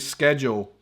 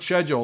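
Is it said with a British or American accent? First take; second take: American; British. First: It is said the American way. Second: It is said the British way.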